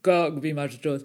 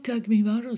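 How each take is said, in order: First: It is said firmly and with confidence. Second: It is said hesitantly and softly.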